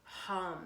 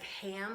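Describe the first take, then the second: First: The vowel sounds like the one in 'cut'. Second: The vowel sounds like the one in 'cat'. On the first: The speaker calls it right. "it's hum" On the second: The speaker calls it wrong. "it's not like ham, like we would normally pronounce that"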